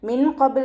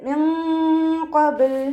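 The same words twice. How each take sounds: First: The n sound is pronounced clearly and fully. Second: The n sound is hidden into a nasal hum. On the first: The speaker calls it wrong. "നൂനിൻ്റെ സൗണ്ടിനെ വ്യക്തമായിട്ട് കേൾപ്പിക്കരുത്... എന്ന് ഉച്ചരിക്കരുത്" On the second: The speaker calls it right. "നൂൻ സാക്കിനയെ മറച്ചു വെച്ചിട്ട് ... അതുപോലെ ഉച്ചരിക്കുക"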